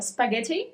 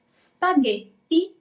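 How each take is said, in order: First: The word is said with an English accent. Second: The word is said with an Italian accent. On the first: "spaghetti in English" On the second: "is spaghetti in Italian"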